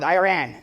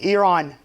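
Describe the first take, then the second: First: The name sounds like the words 'I ran'. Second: The name does not sound like 'I ran'. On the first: The speaker calls it wrong. "it's not Iran. If anybody sometimes tell me Iran and it says you ran to who?" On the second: The speaker calls it right. "It's Iran"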